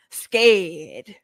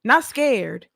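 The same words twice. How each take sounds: First: Scared with a small rising quaver; mock scared. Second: Said in the usual way. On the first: Shown as a demonstration. Contrasting herself not scared with scared, as a mock whimper. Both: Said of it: "Now she's scared".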